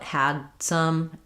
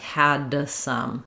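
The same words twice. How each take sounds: First: The D is held back without release. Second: The D is released, adding an extra sound. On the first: The speaker calls it right. "So you don't let that D out" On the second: The speaker calls it wrong. "that ends up sounding like an extra sound"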